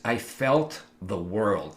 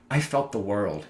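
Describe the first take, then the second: First: Drawn out slowly with weight on felt; slow it right down on "felt"; slow, heavy repeat. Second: Said in the usual way. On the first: Real, not acted. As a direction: let "I felt the world" sink in slowly.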